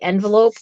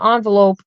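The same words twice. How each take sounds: First: It is said in the speaker's everyday pronunciation. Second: It is said in a New York pronunciation. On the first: This is how the speaker usually says it. "I mostly say envelope" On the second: The speaker's regional background shows through. "my New York comes out and I call it an envelope"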